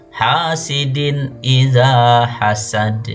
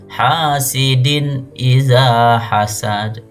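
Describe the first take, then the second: No difference in how they are said.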